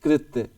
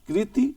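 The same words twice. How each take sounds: First: कृत्य said with a falling end, half ta joined; spelling pronunciation. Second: कृति said with a clear kri sound and a rising end; spelling pronunciation. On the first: Teacher sounds out कृत्य for the students. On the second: Teacher sounds out कृति for the spelling class. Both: Shown as a demonstration. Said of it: "इसमें देखो आधा ता बोला गया".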